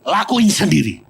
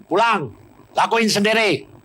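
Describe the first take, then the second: First: Perintah keras dan tegas; marah. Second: Perintah keras dan tinggi; marah. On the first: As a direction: bentak dengan nada marah. (pendeta menyuruh suami istri dengan marah) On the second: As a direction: usir dengan marah. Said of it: "marah dua-dua". (pendeta mengusir dengan marah) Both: Retold or imitated.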